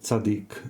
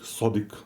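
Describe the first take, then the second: First: The word begins with a ts sound. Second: The word begins with a deep s sound. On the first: The speaker calls it wrong. "very often I will even say Tzaddik" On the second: The speaker calls it right. "but it's Sodik"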